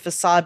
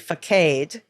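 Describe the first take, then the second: First: The c is said as an s sound. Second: The c is not said as an s sound. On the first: The speaker calls it right. "which he thought should be facade" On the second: The speaker calls it wrong. "his friend thought it should be facade"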